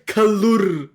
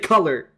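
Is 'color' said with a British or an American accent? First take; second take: British; American. First: It is said the British way. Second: It is said the American way. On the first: The speaker calls it wrong. "We are not the Brits. We do not say color" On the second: The speaker calls it right. "we say color"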